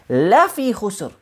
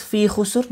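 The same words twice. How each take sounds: First: "Lafi" drawn out slowly and emphatically; slow, weighty "Lafi" for emphasis; stress on LAFI. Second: Said in the usual way. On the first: Shown as a demonstration. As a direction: lean on "Lafi", then fall on "khusr". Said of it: "That's for emphasis".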